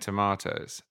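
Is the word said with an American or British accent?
British. It is said with a British accent.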